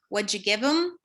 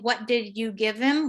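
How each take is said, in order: First: The word 'did' is reduced into 'what'd'. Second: The word 'did' is said in full. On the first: "We would say" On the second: "instead of saying"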